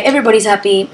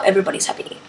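First: Said in the usual way. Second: Soft whispered echo. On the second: Real, not acted. Repeating her happy line to viewers, whispered. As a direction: breathe it like a private aside.

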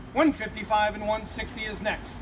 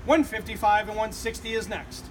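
The two takes are said the same way.

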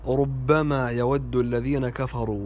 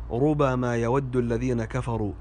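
First: "ربما" as rubbama; doubled ba. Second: "ربما" as rubama, ba open; single ba. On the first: Teacher shows a common mistake, "ربما" said rubbama. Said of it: "وهذا خطأ". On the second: Teacher recites the corrected verse, "ربما" said rubama. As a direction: say "ربما" without doubling the b. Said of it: "الباء مفتوحة وليست مشددة". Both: Shown as a demonstration.

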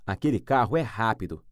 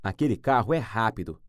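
Both takes have the same delivery.

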